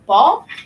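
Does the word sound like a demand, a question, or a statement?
question. It sounds like a searching question. The child asks where the ball is. "they're saying, where's where's the ball"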